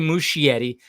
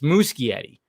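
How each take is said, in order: First: The middle consonant is said as 'sh'. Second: The middle consonant is said as 'k'. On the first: The speaker calls it wrong. "I shouldn't say Muschietti" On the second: The speaker calls it right. "So there's a K in there. Not an H"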